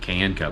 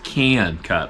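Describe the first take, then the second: First: 'Can' has a plain, standard vowel. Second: 'Can' has a drawn-out, southern-sounding vowel. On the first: The speaker calls it wrong. "I always was pronouncing it can cut" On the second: The speaker calls it right. "like a southerner would say the word can"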